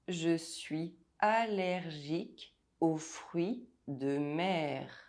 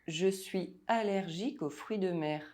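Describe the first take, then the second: First: It is said slowly and deliberately. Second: It is said at normal speaking speed. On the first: "while I say it slowly" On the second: "listen to the sentence without the text"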